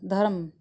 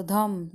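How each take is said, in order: First: धर्म with a clear rolled r; trilled r. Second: धम said with no r sound, short; r dropped. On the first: Teacher shows students धर्म with the tongue trilling. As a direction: roll the r in धर्म. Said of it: "जीभ में थरकन पैदा होती है". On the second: Teacher shows students धम without the r. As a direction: say धम, swallowing the r. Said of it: "जब हम धर्म बोलते हैं तो धम". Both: Shown as a demonstration.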